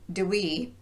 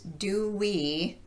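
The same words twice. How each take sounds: First: The words are shortened with weak vowels. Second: The words keep their full vowels. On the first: "to do we" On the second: "reduce do we"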